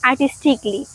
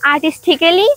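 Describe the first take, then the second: First: The vowel before -ly is silent. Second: The vowel before -ly is sounded. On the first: The speaker calls it right. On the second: The speaker calls it wrong.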